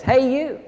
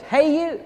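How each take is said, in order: First: High cheeky parrot hello; parrot call, first time. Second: High squawky parrot call. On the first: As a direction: call the man over like a parrot. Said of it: "this parrot says". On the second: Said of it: "And the parrot says". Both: Acted.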